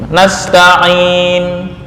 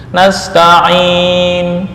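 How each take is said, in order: Both takes have the same delivery.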